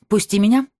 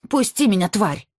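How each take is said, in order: First: Loud, hard order; harsh command. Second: High angry cry, struggling; struggling against restraints. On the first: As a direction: bark it firmly. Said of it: "жёстко сказала она". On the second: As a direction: spit it while wrestling free. Struggling to break free. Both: A narrator's reading.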